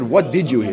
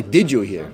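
First: "What" leads, the rest falls away; stress on WHAT. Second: "Did" leads in a lower-pitched question; stress on DID. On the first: Teacher quoting the question exactly for students, stress on "What". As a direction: put the weight on "What". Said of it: "He didn't say, "Did you hear?". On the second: Teacher giving the question that was not asked, stress on "Did". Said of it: "He didn't say". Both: Shown as a demonstration.

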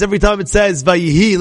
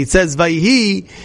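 First: Said in the usual way. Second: It says Vayihi, slowing down on Vayihi; slow stress on Vayihi. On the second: Shown as a demonstration. Teacher drawing the class's ear to Vayihi, slow and stressed. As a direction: lean slowly into Vayihi. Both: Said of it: "listen carefully".

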